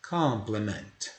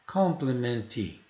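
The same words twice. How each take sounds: First: "Complement" slow, ending on a silent t with no extra i; "Complement" slow, with a mute final t; pronunciation model. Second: "complement" slow, with an added i sound at the end; "complement" said wrong as "complementi"; wrong pronunciation demo. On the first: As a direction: say "Complement" slowly, with no vowel after the t. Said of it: "T mudo". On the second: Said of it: "Não acrescente um I no final". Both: Shown as a demonstration.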